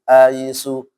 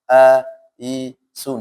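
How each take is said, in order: First: The word is read quickly. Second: The word is read slowly.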